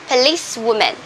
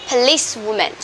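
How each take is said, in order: No difference in how they are said.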